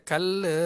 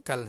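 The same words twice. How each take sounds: First: Put-on "Kala" in a Chennai accent, with a drawn-out final vowel; imitated Chennai accent. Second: "Kal" ending cleanly on the L; short "Kal" with nothing after the L; no added vowel. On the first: Teacher retelling a Chennai man's answer, imitated Chennai accent. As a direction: mimic a Chennai speaker adding "-le" to kal. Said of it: "ikut dia punya slang bahasa negeri dia". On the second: Shown as a demonstration. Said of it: "tak ada le-le".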